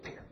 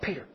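First: The name is whispered softly. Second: The name is said aloud, more loudly. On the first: "maybe first he whispered to him" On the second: "then a little louder"

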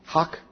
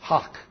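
First: It has a short O and ends in K. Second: It has a short O and ends in K.

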